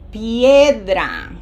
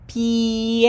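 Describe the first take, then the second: First: Piedra with pi and e blended, said louder. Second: Piedra broken off at pi, not blended; cut-off take. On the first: Teacher modelling the blended Spanish word piedra. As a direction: glide pi-e together in piedra. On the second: Teacher showing an unblended start of piedra. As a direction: stop short on the pi of piedra. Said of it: "that doesn't say pi". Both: Shown as a demonstration.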